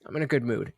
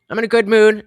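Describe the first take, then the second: First: Low, soft mumble; quiet, low. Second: Bright louder take; louder, higher. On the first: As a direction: say it quietly to yourself. First take, low and soft. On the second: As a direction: announce it louder. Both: Real, not acted.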